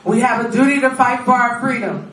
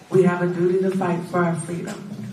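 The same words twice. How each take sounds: First: It is said louder, with more feeling. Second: It is said at a normal volume.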